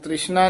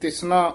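First: It is said with an r after the first t. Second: It is said without an r after the first t. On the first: The speaker calls it wrong. "ਤ੍ਰਿਸ਼ਨਾ ਨਹੀਂ ਕਹਿ ਦੇਣਾ" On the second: The speaker calls it right. "ਇਸ ਕਰਕੇ ਇੱਥੇ ਤਿਸਨਾ ਉਚਾਰਨ ਕਰਨਾ"

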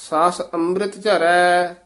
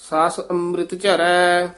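Both takes have the same delivery.

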